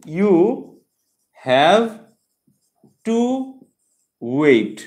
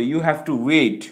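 First: "you... have... to... wait", long pause after each word, HAVE and WAIT loud. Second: Said in the usual way. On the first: Shown as a demonstration. Teacher breaking down the infinitive for students, word by word. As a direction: punch out "you have to wait" as isolated words.

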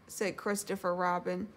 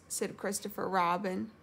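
The two takes are said the same way.

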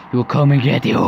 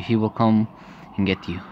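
First: Loud, escalated menace; mounting threat. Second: Restrained threat. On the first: False mother threatens the daughter with the monster, loud menace. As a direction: drive the threat up toward a cackle. Threat repeated, building into cackle. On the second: False mother threatens the daughter, restrained menace. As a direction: menace that drops away at the end. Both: Acted.

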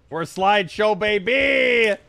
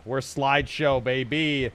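First: Mock hype. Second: Said in the usual way. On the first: Real, not acted. Gamer mocking the lag, mock-hype call. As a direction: sell the lag like a win. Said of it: "repeated louder". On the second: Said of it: "same words again".

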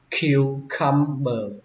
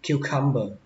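First: Cucumber slowly split as kyu-cum-ber; syllable by syllable. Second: Said in the usual way. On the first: Shown as a demonstration. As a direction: sound out "cucumber" in slow, separate pieces. Teacher breaks word into syllables.

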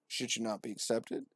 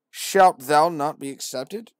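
First: Said in the usual way. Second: Slow, louder preacher line; solemn verse. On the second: Acted. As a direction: proclaim the question. Verse read out.

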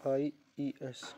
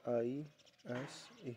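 First: "IES" drawn out letter by letter and falling at the end; slow spelling. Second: Slow spelling. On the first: Teacher spelling the plural ending slowly for pupils. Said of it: "क्या कर देंगे, IES". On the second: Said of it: "यहाँ पर क्या लगा देंगे". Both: Shown as a demonstration.

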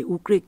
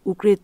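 No difference in how they are said.

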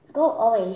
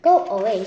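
First: Loud snapped go away; loud shooing. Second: Sharp, much louder shout; loud go away. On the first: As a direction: shoo him off loudly. Wife repeats, shooing Jack. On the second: Giant's wife shouting at Jack to leave, loud. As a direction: shoo the boy off loudly. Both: Acted.

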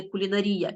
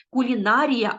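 First: Кулінарія stressed on -рі-, as the mistake; wrong stress. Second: Кулінарія stressed on -ні-, кулінАрія avoided; correct stress. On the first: Teacher showing the wrong stress in кулінарія. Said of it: "а не кулінарія". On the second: Teacher modelling the correct stress in кулінарія. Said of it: "ми кажемо кулінарія". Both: Shown as a demonstration.

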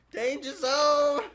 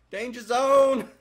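First: Sung, high, loud, stretched hook; sung, hold the hook out long and high; sung, slow belted song line. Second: Sung, high, loud belted hook; sung, belt it like an eighties rock chorus; sung, belted song line. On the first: Sung, streamer belting the song line again, stretched slow. Singing Top Gun line, laughing. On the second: Sung, streamer belting a movie song line while fleeing, loud and high. Singing Top Gun line. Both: Pretend.

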